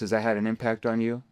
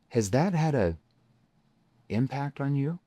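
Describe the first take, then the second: First: It is said in a flat, monotone voice. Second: It is said slowly in a concerned voice. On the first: The question gets only shallow answers. The speaker calls it wrong. "monotone voice equals monotone surface level answers" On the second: The question draws out the prospect's emotion. The speaker calls it right. "how my tone shifts into that concerned tone"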